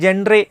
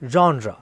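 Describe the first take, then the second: First: The word begins like 'jen' with a d sound. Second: The word begins like 'jon' without a d sound. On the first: The speaker calls it wrong. "മിക്കവാറും ആൾക്കാർ ജെൻഡ്രെ എന്ന് പറഞ്ഞിട്ടാണ് നമ്മളത് മിസ്പ്രൊനൗൺസ് ചെയ്യാറ്" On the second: The speaker calls it right. "British English pronunciation വരുന്നത് ജോൺ റ"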